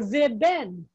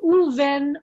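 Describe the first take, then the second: First: It starts with veh, then ben. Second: It starts with an oo sound, then ven. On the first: The speaker calls it wrong. "You can't do that, or ve ben" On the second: The speaker calls it right. "the ve turns to an u"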